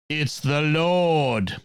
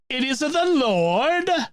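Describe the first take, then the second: First: It is said in a plain accent. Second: It is said in an Italian accent.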